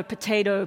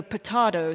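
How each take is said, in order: First: "potato" with a long AY in the middle; American potato. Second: "potato" with a broad AH in the middle; British-style potato. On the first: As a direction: say potato as po-TAY-to. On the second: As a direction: say potato as po-TAH-to. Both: Shown as a demonstration. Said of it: "potato thing".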